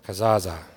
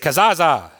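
First: The word is said in a sad, mournful tone. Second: The word is said in a plain, neutral tone.

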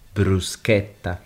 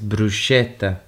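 First: The middle consonant is a hard 'k' sound. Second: The middle consonant is a soft 'sh' sound. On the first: The speaker calls it right. "but the correct pronunciation is bruschetta" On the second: The speaker calls it wrong. "because everyone says bruschetta"

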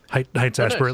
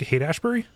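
First: The first word is said like 'heights'. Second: The first word is said like 'hate'. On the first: The speaker calls it wrong. "I always mispronounce it" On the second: The speaker calls it right. "like Hate Ashbury"

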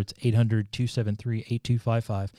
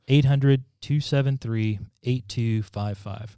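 First: The number is said at normal speed. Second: The number is said slowly.

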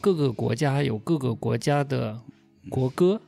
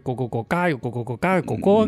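First: It is said in standard Mandarin. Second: It is said in Cantonese.

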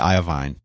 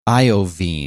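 First: The last syllable rhymes with 'wine'. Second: The last syllable rhymes with 'bean'. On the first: The speaker calls it wrong. "which is how I thought you said it. Like bovine" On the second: The speaker calls it right. "Like Jeffrey Veen"

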